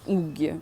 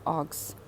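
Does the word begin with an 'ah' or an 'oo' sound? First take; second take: oo; ah. First: It starts with an oo sound, ending in -i. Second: It starts with an ah sound, ending in -s. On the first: This is the local habitual form. The speaker calls it wrong. "Росія, Україна, Білорусь, уггі, ми кажемо" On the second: This is the original brand form. The speaker calls it right. "Насправді читається агс, вимовляється агс, правильно"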